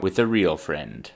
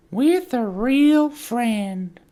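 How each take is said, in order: First: Said in the usual way. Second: Very high, loud, drawn-out silly voice. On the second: Acted. Repeats the line in put-on voices.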